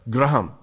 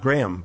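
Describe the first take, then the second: First: The name is said with an Indian accent. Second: The name is said without an Indian accent. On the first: "many Indians with an Indian accent will say" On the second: "not Graham"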